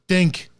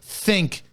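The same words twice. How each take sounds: First: The 'th' sound at the start is dropped. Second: The 'th' sound at the start is clear. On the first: The speaker calls it wrong. "saying think instead of think" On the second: The speaker calls it right. "Learn to enunciate your fucking words"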